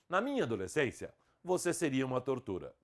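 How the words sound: There is a pause after "adolescência". "com vírgula"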